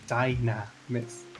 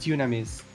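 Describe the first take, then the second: First: The first syllable sounds like 'die'. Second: The first syllable sounds like 'doo'. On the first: This is the familiar English form of the name. "how does that sound like Dynamis?" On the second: This is the Japanese form of the name. "Is Dynamis in Japanese Dynamis or Dunamis? It is Dunamis"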